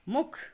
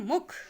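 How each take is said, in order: First: The u vowel is kept short. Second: The u vowel is kept short.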